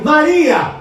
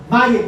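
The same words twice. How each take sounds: First: "Maria!" called out high and loud; loud sharp call of the name. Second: Said in the usual way. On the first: Shown as a demonstration. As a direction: call her name sharply to snap her back. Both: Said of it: "Gente, assim mesmo".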